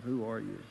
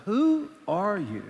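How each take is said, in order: First: WHO ARE YOU low, soft and falling; low, subdued reenacted disbelief; quiet hurt. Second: WHO drawn out high, very slow; wounded disbelief, stretching out WHO; hurt questioning. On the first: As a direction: let the question drop, defeated. Hurt wife's closing question. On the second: Retold or imitated. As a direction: slowly challenge with a higher WHO. Hurt wife confronts him, first take.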